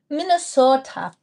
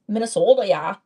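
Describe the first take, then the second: First: Put-on Minnesota accent, higher at first. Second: Put-on playful Minnesota accent with a tacked-on "yeah". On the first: Vlogger teases Minnesotan viewers about their speech, mock Minnesota accent. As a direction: imitate a Minnesotan saying the state's name. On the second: Vlogger mimics Minnesotan viewers agreeing, mock Minnesota accent. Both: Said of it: "Do y'all actually talk like that?".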